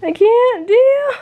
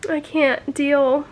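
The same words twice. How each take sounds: First: Higher, louder, crying out through tears. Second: Said in the usual way. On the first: Real, not acted. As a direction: sob it out, completely overwhelmed. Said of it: "I'm crying".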